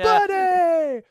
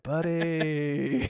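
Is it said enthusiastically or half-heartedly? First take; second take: enthusiastically; half-heartedly. First: It is said loudly and enthusiastically. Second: It is mumbled quietly and half-heartedly.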